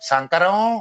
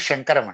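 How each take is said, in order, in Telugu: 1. ఈ పేరు సాధారణ s శబ్దంతో మొదలవుతుంది. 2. ఈ పేరు sh శబ్దంతో మొదలవుతుంది. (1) "మెలిక ష ఎవడు పలకరు. సంకరం అని అంటారు" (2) "నా పేరు శంకరం అండి"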